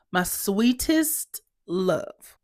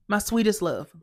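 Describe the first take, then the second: First: Very slow, drawn-out endearment; exasperated endearment. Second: Said in the usual way. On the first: Acted. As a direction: stretch each word with strained patience. Repeats appeal, drawn out.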